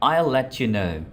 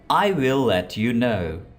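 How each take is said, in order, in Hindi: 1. शब्द छोटे होकर आपस में मिल जाते हैं। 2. हर शब्द पूरा और अलग-अलग बोला जाता है।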